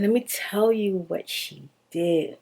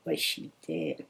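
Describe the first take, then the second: First: Said in the usual way. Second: Much lower and softer, a dark aside; low murmured echo. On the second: Shown as a demonstration. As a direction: drop the voice low for an ominous echo.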